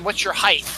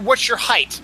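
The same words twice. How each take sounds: First: "height" ending in TH; mispronounced height. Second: "height" ending in T; standard height. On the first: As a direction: ask it saying HEIGHT as "highth". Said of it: "it's not". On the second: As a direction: ask it with a T closing HEIGHT. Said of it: "I've heard". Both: Retold or imitated.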